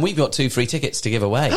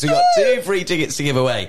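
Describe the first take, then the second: First: Said in the usual way. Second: Higher burst, loud at the start; hammed-up excitement. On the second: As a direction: announce it like thrilling news just remembered. Repeats giveaway news with mock excitement.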